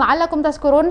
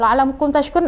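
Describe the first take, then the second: First: The last word has an 's' sound before 'kurun'. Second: The last word has an 'sh' sound before 'kurun'. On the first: May you become drunk people. The speaker calls it wrong. "semoga kamu jadi orang-orang yang mabuk" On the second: May you become grateful people. The speaker calls it right. "semoga kamu menjadi orang-orang yang bersyukur"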